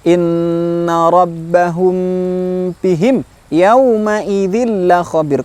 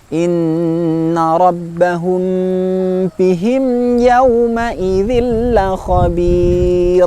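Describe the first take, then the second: First: The m in bihim stops abruptly. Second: The m in bihim is held briefly. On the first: The speaker calls it wrong. "contoh yang keliru" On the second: The speaker calls it right. "tidak serta-merta berhenti"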